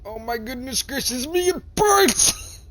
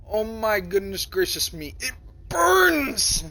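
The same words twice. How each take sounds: First: High, rising to a loud squeal on burns; mock pained exclaim. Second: Real-me take. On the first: Player reacts to the burning power, hammed-up prissy squeal. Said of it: "and I'm like". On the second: Shown as a demonstration. Player redoes the line as his real self, high squealing take. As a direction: do it as he would really say it. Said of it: "to audio it like real me".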